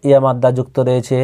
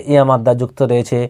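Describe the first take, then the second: No difference in how they are said.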